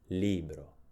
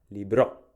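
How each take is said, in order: First: The stress is on the first syllable. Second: The stress is on the second syllable. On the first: "Pronunciamo più forte la prima sillaba" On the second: "Se l'accento si trovasse sulla seconda vocale, quindi sulla O"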